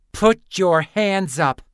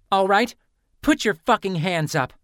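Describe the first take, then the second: First: Slow, loud snarled command; furious slow snarl, hands up. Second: Loud, high demand to raise hands; shouted command, hands up. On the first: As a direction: drag each word out as a threat. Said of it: "Lynn snarled". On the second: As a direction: bark the order at her. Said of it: "Lynn demanded". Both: Acted.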